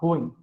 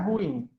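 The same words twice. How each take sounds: First: The word is said as one syllable. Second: The word is split into two syllables. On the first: The speaker calls it right. "a pronúncia correta é ruim... monossílaba" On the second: The speaker calls it wrong. "Não é ruim"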